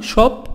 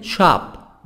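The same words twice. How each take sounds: First: "Shop" with rounded British o, ʃɔp; British vowel in "Shop". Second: "Shop" with open American a, ʃɑp; American vowel in "Shop". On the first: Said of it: "بريطاني". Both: Shown as a demonstration.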